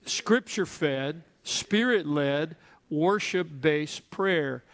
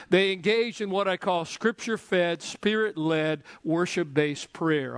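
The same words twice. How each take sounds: First: Each part drawn out slowly, rising then falling; slow call-and-response. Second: Spaced, punched slogan with each part stressed; slogan said slowly. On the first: Pastor leading the church to repeat, slow chant. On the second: Preacher giving his congregation a slogan, slow and stressed. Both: Shown as a demonstration. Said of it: "Say it with me".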